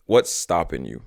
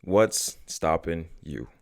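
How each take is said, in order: First: Said in the usual way. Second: Very slow, each word drawn out; slow and deliberate. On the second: Shown as a demonstration. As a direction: let the question sink in slowly. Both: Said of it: "And really think about this".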